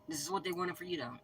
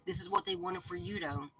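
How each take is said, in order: First: Said in the usual way. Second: High, sing-song mocking pitch. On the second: Reader mocking the schemers in a high voice. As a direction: taunt it up high like a sneer. Mocking repeat of same line.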